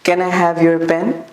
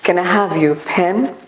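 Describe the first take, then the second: First: The p in pen sounds South Asian, unlike English. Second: The p in pen sounds closer to English. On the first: The speaker calls it wrong. "बिल्कुल उनकी तरह accent नहीं लग रहा" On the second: The speaker calls it right. "वो थोड़ा सा उसके close लगेगा"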